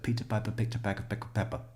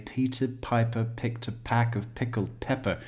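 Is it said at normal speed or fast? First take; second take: fast; normal. First: It is said very fast. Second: It is said at a normal speed.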